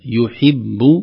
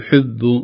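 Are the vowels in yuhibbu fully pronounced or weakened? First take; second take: fully pronounced; weakened. First: Each short vowel is pronounced clearly and fully. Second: The short vowels are weakened and not fully pronounced. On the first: The speaker calls it right. "ننتبه للضمة، نحقق تحقيق الضمة في الياء ثم الكسرة في الحاء" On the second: The speaker calls it wrong. "لا نقول يحب، البعض لا يحقق مثل هذه الحركات"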